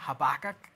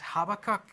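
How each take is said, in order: First: It is said the American way. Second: It is said the usual British way.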